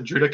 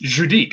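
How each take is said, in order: First: The name is said without a French pronunciation. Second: The name is said with a French pronunciation. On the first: This is how the locals say it. "they just pronounce it Judic out there" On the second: This is how an outsider guessed it is said. "I pronounced it like like the way that the French would probably pronounce it"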